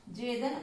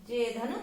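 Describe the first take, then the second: No difference in how they are said.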